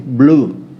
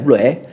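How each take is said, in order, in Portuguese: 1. A palavra termina sem vogal extra. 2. A palavra termina com uma vogal 'e' extra. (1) "A pronúncia é blue" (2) "escreve blue é"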